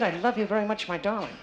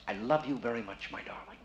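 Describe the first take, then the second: First: Higher-pitched echo of a love line; higher mock-romantic imitation; imitating the volunteer. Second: Soft, tender love line, fading away; quiet romantic murmur dying off; lot of feeling. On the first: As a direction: repeat his love line in a raised, teasing pitch. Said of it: "he said that pretty good". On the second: Shown as a demonstration. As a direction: demonstrate a hushed, passionate declaration. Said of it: "say it with a lot of feeling".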